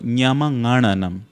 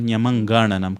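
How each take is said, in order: First: The nasal is said with no g after it. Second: The nasal is followed by a hard g. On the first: The speaker calls it right. "there is no g sound in it, and all it's nga" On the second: The speaker calls it wrong. "It's not nyamangananam"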